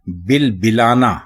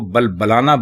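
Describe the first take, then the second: First: The first two syllables have the vowel i. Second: The first two syllables have the vowel a. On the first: A person crying out. The speaker calls it right. "किसी आदमी के लिए" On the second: A camel making its sound. The speaker calls it wrong. "लोग इसको बल बलाना बोलते हैं"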